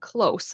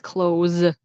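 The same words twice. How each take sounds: First: The word ends with a hissing S sound. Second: The word ends with a buzzing Z sound. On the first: Something is near, not far away. "like not far, but close, then it's an S" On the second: Something is shut. "with the Z sound"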